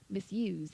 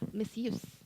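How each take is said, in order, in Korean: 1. 이 단어는 윙윙거리는 z 소리로 끝나요. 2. 이 단어는 쉭쉭거리는 s 소리로 끝나요. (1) "이렇게 그 z 발음을 하시면 동사고요" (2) "s 발음을 하시면"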